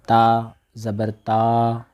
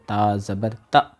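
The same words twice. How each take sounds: First: The final vowel is drawn out long. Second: The final vowel is cut off abruptly. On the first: "यूँ करना खींचना हो गया" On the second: "झटका देना ... ये झटका हो गया"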